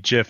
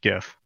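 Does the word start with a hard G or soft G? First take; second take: soft G; hard G. First: It starts with a soft G, as in giraffe. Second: It starts with a hard G, as in gift. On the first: The speaker calls it right. "Why does giraffe have a G?" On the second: The speaker calls it wrong. "and not GIF"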